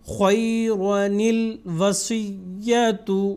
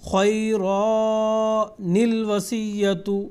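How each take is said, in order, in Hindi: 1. शब्द 'nil' के साथ सीधे जुड़े हुए हैं। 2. दोनों शब्दों के बीच अलिफ़ का स्वर बोला जाता है। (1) "क्योंकि अलिफ को हज़्फ़ करना है हमने" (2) "ऐसा नहीं पढ़ेंगे ... ये गलत होएगा"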